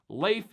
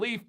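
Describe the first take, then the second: First: The vowel sounds like 'lay'. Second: The vowel sounds like 'lee'. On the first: The speaker calls it right. "It's supposed to be pronounced Leif, like L A L A Y F" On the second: The speaker calls it wrong. "It's not leaf like we find on trees"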